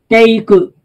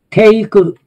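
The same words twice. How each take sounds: No difference in how they are said.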